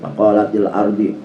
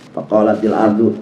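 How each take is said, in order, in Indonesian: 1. Kata terakhir berakhir dengan vokal 'ee'. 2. Kata terakhir berakhir dengan vokal 'oo'. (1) "batuk lagi" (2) "tah, baru dibenerin"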